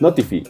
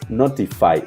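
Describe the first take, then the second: First: The final vowel sounds like ee. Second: The final vowel sounds like eye. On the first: The speaker calls it wrong. "la pronunciación no es notify" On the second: The speaker calls it right. "es notify, o sea, de una i en inglés"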